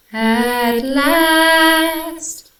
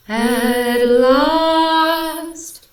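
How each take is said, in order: First: Sung, at LAST belted high with a flatter "a" in last; sung, loud, long high notes on "at last"; sung altered vowel. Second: Sung, at LAST belted high, long open "aw" vowel; sung, loud held notes, last as "lost"; sung normal vowel. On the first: Reviewer testing another sung vowel, belted flatter LAST. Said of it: "also doesn't sound right". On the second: Reviewer testing the sung vowel, belted open LAST. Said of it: "that doesn't sound funny". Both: Shown as a demonstration.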